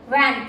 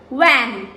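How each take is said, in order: First: It starts with lips bitten, a V sound. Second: It starts with rounded lips, a W sound. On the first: The speaker calls it right. "you have to bite your lips" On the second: The speaker calls it wrong. "It's not van, wa, ah, wa, in. No, that is W"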